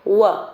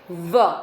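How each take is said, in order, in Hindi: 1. होंठ गोल होते हैं और दाँतों को नहीं छूते। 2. निचला होंठ ऊपर के दाँतों को छूता है। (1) "कोई भी वर्ड में डब्ल्यू आता है तो उसको हम बोलेंगे व" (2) "कोई भी वर्ड में वी आता है तो उसको हमें बो, हम बोलेंगे व"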